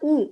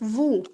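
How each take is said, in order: First: The word starts with a vowel, no V sound. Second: The word starts with a clear V sound. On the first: The speaker calls it wrong. "it's not ou" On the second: The speaker calls it right. "it's vous with a V sound"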